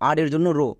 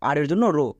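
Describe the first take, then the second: No difference in how they are said.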